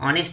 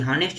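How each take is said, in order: First: The word begins directly with a vowel. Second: The word begins with an h sound. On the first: The speaker calls it right. "ये S silent होता है, ऑनेस्ट होता है" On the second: The speaker calls it wrong. "हॉनेस्ट नहीं होता है"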